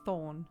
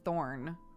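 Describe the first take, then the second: First: It is said in a British accent. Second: It is said in an American accent. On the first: "No one says Thorn here" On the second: "Even the last name, I say Thorn"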